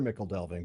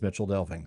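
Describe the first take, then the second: First: The first word has a hard k sound. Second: The first word has a ch sound. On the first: The speaker calls it wrong. "I know it is hard not to read Mickle delving" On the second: The speaker calls it right. "it would actually be Mitchell delving"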